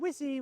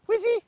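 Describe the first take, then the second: First: The name is called flat and dull. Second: The name is called high-pitched and lively. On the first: Nothing interesting is on offer. The speaker calls it wrong. "that's boring" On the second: Following the caller looks fun. The speaker calls it right. "I'm using a high-pitched voice"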